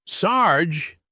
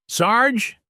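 First: Second call. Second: Calling out. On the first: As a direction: call his name again, less urgent. Calling out again, softer. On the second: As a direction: shout his name to find him. Calling out for the sheriff. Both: A narrator's reading.

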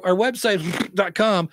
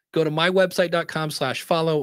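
First: Mock a host slurring through a familiar web address; rushed, garbled mock. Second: Clear, careful. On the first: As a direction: blurt the web address as an unintelligible blur before "dot com". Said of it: "They say it so fast". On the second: Shown as a demonstration. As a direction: give the web address clearly, word by word. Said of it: "So say it slowly and clearly".

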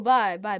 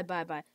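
First: Said in the usual way. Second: Soft bye. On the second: Shown as a demonstration.

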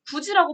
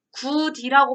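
First: 굳이 said as 구지, with a j sound; d turned to j in 굳이; palatalized 굳이. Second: 굳이 said as 구디, with a plain d; d kept before the i in 굳이; unpalatalized 굳이. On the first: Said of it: "발음이 날까". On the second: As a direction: say 굳이 letter by letter as "gu-di". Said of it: "발음을 안 하고". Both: Shown as a demonstration.

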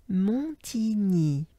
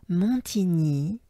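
The two takes are said the same way.

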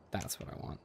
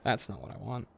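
First: Whispered with no voice. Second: Said in the usual way. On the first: Shown as a demonstration. Quoting himself about the items, whispered. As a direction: breathe it out as a whisper.

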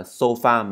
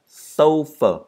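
First: "sofa" wrongly said "so-FA", full a at the end; flat-stressed "sofa" with open final a. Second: "sofa" as "SOH-fuh", high first syllable, weak ending; corrected "sofa", falling from SO; stress on SO. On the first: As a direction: mispronounce "sofa" the Vietnamese way, so-fa. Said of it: "không phải là sofa mà là sofa". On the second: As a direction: punch SO in "sofa", reduce the end to schwa. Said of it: "cho âm rơi vào chữ so đó". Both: Shown as a demonstration.

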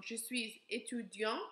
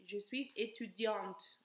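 First: "étudiant" with the last T dropped; masculine, T silent; silent final T. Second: Slow "étudiante", T audible; feminine, T sounded; final T pronounced. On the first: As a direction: say "étudiant" ending on the nasal vowel, no T sounded. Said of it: "We do not pronounce that last T". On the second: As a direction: say "étudiante" with the T clearly sounded at the end. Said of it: "we pronounce the T because we add the E". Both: Shown as a demonstration.

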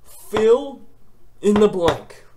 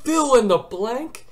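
First: Louder and higher, each word split off; outraged emphasis. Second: High, slow, rising disbelief; shocked disbelief. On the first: Repeating in outrage. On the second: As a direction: hear the question as if it insults you. Shocked at test format. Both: Retold or imitated.

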